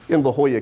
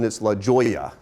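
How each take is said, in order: First: The J in Jolla is not sounded. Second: The J in Jolla is sounded. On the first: The speaker calls it right. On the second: The speaker calls it wrong.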